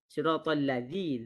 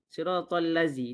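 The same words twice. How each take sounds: First: The consonant in 'lazi' is a voiced 'th'. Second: The consonant in 'lazi' is a plain 'z'. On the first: The speaker calls it right. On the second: The speaker calls it wrong. "Itu salah tu"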